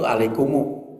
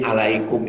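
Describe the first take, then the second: First: The word ends with an added u vowel. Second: The word ends on a closed m sound.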